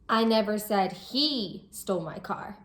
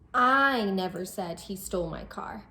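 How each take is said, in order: First: The word "he" carries the main stress. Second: The word "I" carries the main stress. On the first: Someone else stole the car. "I'm saying that it wasn't him who stole the car, but it was someone else" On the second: Someone else said it. "we might be expressing that it wasn't me who said it, it was someone else"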